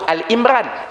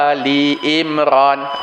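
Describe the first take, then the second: First: The first part is said as short 'Al'. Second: The first part is said as full 'Ali'. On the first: The speaker calls it wrong. "Kalau Al-Imran salah" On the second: The speaker calls it right. "Ali, bukan Al"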